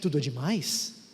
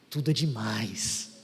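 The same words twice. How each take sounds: First: It is said as a doubtful question. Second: It is said as an enthusiastic exclamation. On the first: Everything is too much. "Você acha que tudo é muita coisa?" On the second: Everything is wonderful. "tudo é espetacular"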